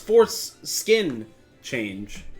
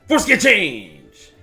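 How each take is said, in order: First: The phrase is said at a slower, careful pace. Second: The phrase is said quickly, run together.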